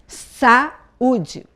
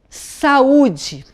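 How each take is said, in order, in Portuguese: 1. As vogais 'a' e 'u' ficam em sílabas separadas. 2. As vogais 'a' e 'u' ficam em sílabas separadas.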